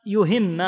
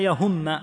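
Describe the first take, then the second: First: "يهم" pronounced yuhimma, u on the ya and i on the ha; damma su ي, kasra su ه. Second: "يهم" pronounced yahumma, a on the ya and u on the ha; fatha on ي, damma on ه. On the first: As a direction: say "يهم" as yu-HIM-ma. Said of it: "بضم الياء وكسر الهاء". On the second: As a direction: say "يهم" as ya-HUM-ma. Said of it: "بفتح الياء وضم الهاء". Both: Shown as a demonstration.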